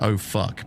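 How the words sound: It is said in a common accent.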